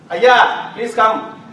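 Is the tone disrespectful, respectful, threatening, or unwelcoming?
disrespectful. The voice sounds rude and disrespectful. The person is not given respect. "Tone is disrespectful"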